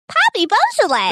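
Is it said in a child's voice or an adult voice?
child. It is said in a childlike voice.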